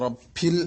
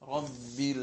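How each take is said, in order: First: The b has a puff of air, like p. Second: The b is a clear b without a puff. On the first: The speaker calls it wrong. "എങ്ങനെയാണ് തെറ്റാറുള്ളത്? റബ്ബിൽ എന്നായി പോവും" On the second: The speaker calls it right. "Clear ബ തന്നെ ഉച്ചരിക്കാൻ വേണ്ടി ശ്രമിക്കണം"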